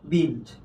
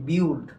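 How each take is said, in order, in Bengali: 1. স্বরধ্বনিটি সরল ছোট 'i'। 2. স্বরধ্বনিটি i থেকে u-তে গড়িয়ে যায়। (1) "কিন্তু এটা উচ্চারণ হবে কি বিল্ড" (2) "কিন্তু আমরা উচ্চারণ করি কি বিউল্ড"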